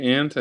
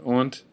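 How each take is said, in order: First: Said in the usual way. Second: "aunt" with an open AW vowel; alternative pronunciation. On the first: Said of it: "I say ant". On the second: Shown as a demonstration. Vlogger showing how some others say it, alternative pronunciation. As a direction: say "aunt" like "awnt". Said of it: "some people pronounce it aunt".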